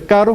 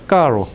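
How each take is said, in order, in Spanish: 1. La r es un toque rápido de la punta de la lengua. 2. La r se hace con la lengua doblada hacia atrás. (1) "En vez de caro" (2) "Se dobla la lengua hacia atrás"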